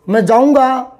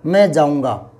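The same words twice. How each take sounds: First: It is said forcefully, with emphasis. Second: It is said plainly, without emphasis.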